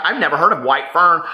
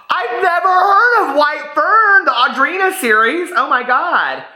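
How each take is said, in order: First: Said in the usual way. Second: Real shock. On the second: Real, not acted. Learning of a book she never heard of, astonished cry. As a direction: cry out in disbelief.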